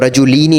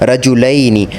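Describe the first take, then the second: First: The vowel after the L sounds like 'ee'. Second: The vowel after the L sounds like 'ai'. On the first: The speaker calls it wrong. "रजुलीनी नहीं पढ़ना, क्यों? क्योंकि इस तरह से आप लाम पे ज़ेर यानी कसरा दे रहे हैं" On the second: The speaker calls it right. "ज़बर देनी है"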